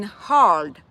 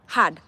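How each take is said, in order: First: "hard" drawn out with a rounded vowel; American pronunciation. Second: "hard" pronounced "had"; low, short "hard" with no R, as "had". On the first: Showing how gumu must sound, "hard" drawn out. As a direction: stretch "hard" so it cannot be "had". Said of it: "it has to pronounce as that". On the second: What an American understands, "hard" sounding like "had". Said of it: "they understand H A D". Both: Shown as a demonstration.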